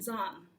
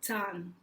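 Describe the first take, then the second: First: The word begins with a soft z sound. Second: The word begins with a hard ts sound. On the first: The speaker calls it wrong. "with an American pronunciation" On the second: The speaker calls it right. "it's more like a T S sound"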